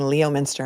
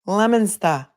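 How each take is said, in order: First: The name begins with a 'Lee-oh' sound. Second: The name begins with a 'Lem' sound. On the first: The speaker calls it wrong. "I was saying Leominster" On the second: The speaker calls it right. "no, it's Lemonster"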